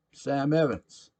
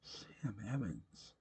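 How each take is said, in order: First: Put-on drunk patron booming his name; loud proud name. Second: Much softer, slow repeat of the name; quiet musing echo. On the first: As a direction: announce himself like a big shot. Sam introduces himself loudly. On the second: A narrator's reading. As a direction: let the name sink in, hushed. Narrator echoes name softly.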